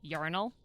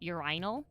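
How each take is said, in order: First: The word is said with a non-British pronunciation. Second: The word is said with a British pronunciation. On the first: "what I would pronounce as urinal" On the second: "a British guy ... he said urinal"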